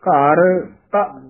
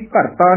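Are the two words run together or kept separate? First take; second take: separate; run together. First: The two words are kept clearly separate. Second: The two words are run together as one. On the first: The speaker calls it right. "ਘਰ ਵੱਖਰਾ ਪਦ ਹੈ, ਤਾਂ ਵੱਖਰਾ ਹੈ" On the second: The speaker calls it wrong. "ਇਹ ਵੀ ਘਰ ਤਾਂ ਨੀ ਬੋਲਣਾ"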